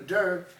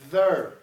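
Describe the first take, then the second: First: It begins with a d sound. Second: It begins with a th sound. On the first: The speaker calls it wrong. "I don't need a der" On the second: The speaker calls it right. "I need a ther"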